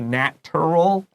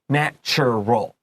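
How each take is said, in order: First: The middle is said with a plain t sound. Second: The middle is said with a ch sound. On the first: The speaker calls it wrong. "Don't say natural. That's wrong" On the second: The speaker calls it right. "it has this kind of ch ch ch sound"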